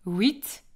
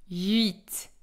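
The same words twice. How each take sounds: First: "Huit" said as "wit"; "Huit" opening on a w sound, like oui; Belgian pronunciation. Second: "huit" with a tight u-glide, "ü-it"; "huit" starting on the French u, not w; French pronunciation. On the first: Teacher contrasting for learners, Belgian Huit pronounced "wit". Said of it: "on va dire le chiffre huit". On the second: Teacher contrasting for learners, French huit with u-glide. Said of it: "et pas le chiffre huit". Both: Shown as a demonstration.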